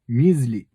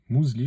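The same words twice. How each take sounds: First: The first vowel is a fronted 'u' sound. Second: The first vowel is a rounded 'ou' sound. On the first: The speaker calls it wrong. "ça se prononce pas comme ça, le Y il n'a pas ce son-là" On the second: The speaker calls it right. "c'est mouz"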